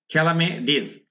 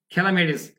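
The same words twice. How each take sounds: First: "খেলামেডিস" in two parts, khelame ... dis; split pronunciation. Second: "খেলামেডিস" as one joined word, khelamedis; joined pronunciation. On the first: Teacher breaks the word up for students, split pronunciation demo. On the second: Teacher puts the word together for students, joined pronunciation demo. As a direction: run "খেলামেডিস" together with no break before dis. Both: Shown as a demonstration. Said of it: "আমি কি কি উচ্চারণ করছি".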